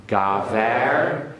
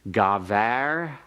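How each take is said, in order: Both takes have the same delivery.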